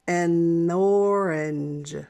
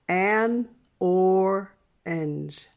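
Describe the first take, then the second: First: The word an is shortened to a quick n. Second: The word an is said fully and slowly. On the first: "you can shorten it to say n and use that stop" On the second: "If we're speaking slowly"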